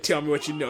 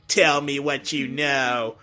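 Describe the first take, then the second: First: Said in the usual way. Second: Slow, measured robot character voice; Metal Sonic. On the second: Shown as a demonstration. Voice actor demonstrating his dub line, Metal Sonic voice. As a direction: deliver it slowly, word by word. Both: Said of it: "basically my voice when he said".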